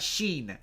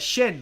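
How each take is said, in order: First: The vowel is long, as in 'sheen'. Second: The vowel is short, as in 'shin'. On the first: The speaker calls it wrong. "Not sheen" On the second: The speaker calls it right. "like your shin"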